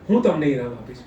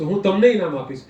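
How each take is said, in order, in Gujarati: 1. ભાર પહેલા શબ્દ પર છે. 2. ભાર બીજા શબ્દ પર છે. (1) "મને કોણ ઇનામ આપશે" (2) "તમે કોને ઇનામ આપશો"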